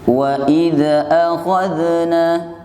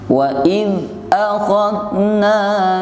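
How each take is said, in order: First: The dh sound bounces with a short extra vowel. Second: The dh sound flows smoothly into the next word. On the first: The speaker calls it wrong. "Kalau dipantul keliru. Contohnya begini" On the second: The speaker calls it right. "suaranya bersambung karena ini huruf rikhwah"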